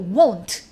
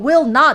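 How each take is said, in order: First: It is said as one contracted syllable. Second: It is said as two full separate words. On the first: The speaker calls it right. "won't 이렇게 얘기해요" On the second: The speaker calls it wrong. "실제로 대화할 때는 우리가 will not 이러지 않고"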